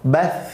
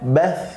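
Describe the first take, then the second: Both takes have the same delivery.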